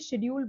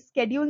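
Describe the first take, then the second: First: The word begins with an sh sound. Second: The word begins with an sk sound. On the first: The word refers to castes and areas. The speaker calls it right. "ये शेड्यूल बोला जाता है" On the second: The word refers to time. The speaker calls it wrong. "Sorry ये स्केड्यूल नहीं"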